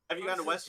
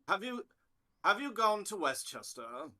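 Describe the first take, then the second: First: It sounds like an ordinary American asking. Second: It sounds like a stuffy British person asking.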